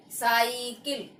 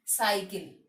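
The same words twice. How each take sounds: First: साइकिल with a long, drawn-out ई in the middle; misspelt pronunciation. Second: साइकिल with a short, quick इ; correct pronunciation. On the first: Teacher reading out the wrong spelling, साइकिल with long ई. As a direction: stretch साइकिल slowly as "saa-ee-kil". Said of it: "अब पहले तो इनका उच्चारण देखिए". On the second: Teacher showing the correct word, साइकिल with short इ. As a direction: say साइकिल as "saa-i-kil", middle vowel short. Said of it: "इसको कैसे उच्चारित करेंगे". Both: Shown as a demonstration.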